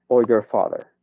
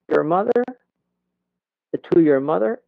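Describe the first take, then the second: First: "father" dropping to a close; falling intonation. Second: High, swooping lift on "mother"; rising intonation. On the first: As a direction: bring "father" down as the last choice. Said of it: "y bajo". (entonación de bajada en "father") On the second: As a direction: push "mother" up at the end. (entonación de subida, aguda) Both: Shown as a demonstration.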